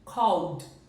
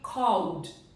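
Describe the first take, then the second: First: The ending is a bare d sound. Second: The ending is a bare d sound.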